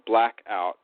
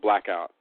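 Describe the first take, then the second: First: It is said as two separate words. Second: It is said as one single word. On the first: The title of one film, written as two words. "I say it like that because it's two words" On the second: The title of a different film, written as one word. "That's all one word"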